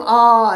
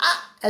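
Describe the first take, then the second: First: A short louder mock "aa" of pain; mock cry of pain. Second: A higher, softer mock "aa" like a little monkey; monkey's cry. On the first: Teacher showing children how we cry out, short louder mock yelp. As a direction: yelp like a kid who hurt his knee. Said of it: "ऐसे चिल्लाते हैं ना हम". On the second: Teacher showing kids how the monkey cried, higher softer squeak. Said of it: "ऐसे चिल्लाया". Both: Shown as a demonstration.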